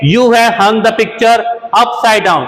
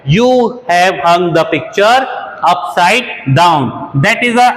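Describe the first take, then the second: First: Slow, careful teacher read; slow first take of the example; slow model sentence. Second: Very slow, broken into chunks with pauses; very slow, chunked repeat for learners; very slow chunked dictation. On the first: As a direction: read the example slowly once. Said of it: "next देखते हैं". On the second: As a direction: dictate phrase by phrase. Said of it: "तो आपने तस्वीर को उल्टा टांग दिया है". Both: Shown as a demonstration.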